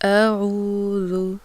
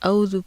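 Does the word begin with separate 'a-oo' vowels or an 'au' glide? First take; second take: a-oo; au. First: It begins with separate 'a' and 'oo' vowels. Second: It begins with a single 'au' glide. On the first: The speaker calls it right. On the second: The speaker calls it wrong.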